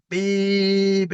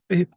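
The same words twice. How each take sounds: First: High, held-out imitation of a horn; long horn beep. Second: Quick, clipped imitation of a horn; short horn beep. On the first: Driver finally pumping the horn for the examiner, long imitated beep. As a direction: hold the beep on like a leaned-on horn. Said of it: "That's better. Keep it on". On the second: Learner bus driver timidly answering the examiner, short imitated beep. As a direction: give the horn one brief beep. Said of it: "if you just pump the horn".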